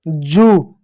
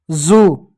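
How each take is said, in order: First: जू as "joo", with a j; plain ज. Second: जू as "zoo", with a buzzing z; dotted ज. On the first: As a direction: say जू with undotted ज. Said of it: "मेरे साथ बोलिएगा इसको". (जू, बिना बिंदी के "j" से) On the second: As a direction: say जू with z, not j. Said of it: "इसके नीचे जब बिंदी लग जाती है". (जू, बिंदी वाले "z" से) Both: Shown as a demonstration.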